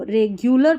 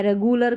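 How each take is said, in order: First: रेगुलर with a y-glide, "reg-yoo-lar"; correct "regular". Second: रेगुलर without the y-glide, "re-goo-lar"; plain "goo" in the middle of रेगुलर; wrong "regular". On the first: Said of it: "इसको रेगुलर पढ़ना है". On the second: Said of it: "करके नहीं पढ़ेंगे". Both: Shown as a demonstration.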